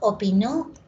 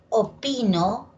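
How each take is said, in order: First: The stress is on the last syllable. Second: The stress is on the middle syllable. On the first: Someone else gave an opinion in the past. "esta palabra por la sílaba tónica es aguda" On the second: I give my opinion now. "Esta palabra de acá por la sílaba tónica es grave"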